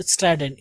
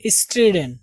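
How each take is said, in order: First: "स्ट्राइडेन" with an 'eye' vowel, pitched lower; गलत उच्चारण. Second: "स्ट्रिडेन" with short 'i', not 'eye'; सही उच्चारण. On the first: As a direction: say "स्ट्राइडेन" as is-TRIDE-en. ("स्ट्राइडेन" का गलत उच्चारण, 'आइ' के साथ) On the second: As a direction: say "स्ट्रिडेन" as is-TRID-en. ("स्ट्रिडेन" का सही उच्चारण, छोटी 'इ' के साथ) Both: Shown as a demonstration. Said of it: "not स्ट्राइडेन".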